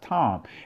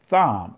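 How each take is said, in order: First: The word begins with a plain t sound. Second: The word begins with a th sound. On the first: This is the modern Hebrew form. "in the modern Hebrew is pronounced Tom" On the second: This is the ancient Hebrew form. "In the ancient Hebrew is pronounced Thom. ... You got the Tha"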